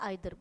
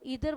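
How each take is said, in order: First: The first vowel sounds like 'eye'. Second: The first vowel sounds like 'ee'. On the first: "आइदर बोल लो" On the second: "ईदर बोल लो"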